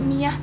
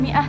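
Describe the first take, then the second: First: The middle has a y sound between vowels. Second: The middle has a glottal stop between vowels. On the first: "tapi miyah pakai ya" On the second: "bukannya mi'ah"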